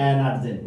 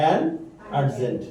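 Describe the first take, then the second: First: Said in the usual way. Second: "An" and "urgent" said slowly with a pause between them; an urgent split apart. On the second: Shown as a demonstration. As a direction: separate "An" from "urgent" clearly. ("An" আর "urgent" আলাদা করে ধীরে বলা) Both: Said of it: "না, an urgent".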